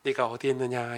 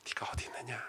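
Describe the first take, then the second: First: Said in the usual way. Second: Voiceless, much softer whisper; God's call whispered gently; hushed whisper. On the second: Shown as a demonstration. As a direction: breathe it out as a tender whisper. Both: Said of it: "여러분, 이게 어떻게 들리세요?".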